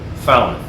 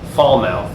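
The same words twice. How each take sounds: First: The word is said in an English accent. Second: The word is said in an American accent. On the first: "by the uh, English to be" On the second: "in current American accent"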